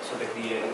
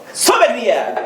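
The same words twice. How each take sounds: First: It is said flatly, with low energy. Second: It is said with lively, high energy.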